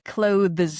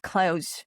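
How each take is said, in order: First: The th sound before the final s is pronounced. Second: The th sound is dropped, like the word close. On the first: The speaker calls it wrong. "you literally are not supposed to do this to yourself" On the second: The speaker calls it right. "it's just clothes"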